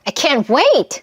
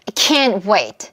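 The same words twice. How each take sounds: First: The stress is on wait. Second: The stress is on can't.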